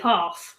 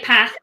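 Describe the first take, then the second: First: It is said in a southern English accent. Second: It is said in a northern English accent. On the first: "I'm down south" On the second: "she's up north"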